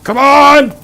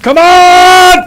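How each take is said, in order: First: High hyped battle yell; loud gung-ho soldier. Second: Even higher, louder all-out war cry; loud gung-ho soldier. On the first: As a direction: roar it like a charging soldier. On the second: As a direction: scream it at the top of your lungs. Hyped gung-ho battle cry. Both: Acted.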